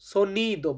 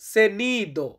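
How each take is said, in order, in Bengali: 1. প্রথম স্বরধ্বনিটি 'o' এর মতো উচ্চারিত হয়। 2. প্রথম স্বরধ্বনিটি 'e' এর মতো উচ্চারিত হয়। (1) "সঠিকভাবে উচ্চারণ করতে গেলে তখন আমরা বলি সোনিদো" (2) "অনেকেই আমরা সেনিদো বলে থাকি"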